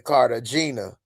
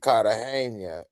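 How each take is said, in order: First: It is said with an American English pronunciation. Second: It is said with a Spanish pronunciation. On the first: This is how the rapper says the name. The speaker calls it wrong. "He say Cartagena" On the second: This is how the local people say the name. The speaker calls it right. "it's actually Cartagena is how they would pronounce it"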